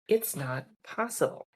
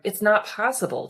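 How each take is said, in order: First: It is said in a calm, relaxed tone. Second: It is said in a tense, resistant tone. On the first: "Our shoulders settled" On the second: "when we flipped the tone, we went from"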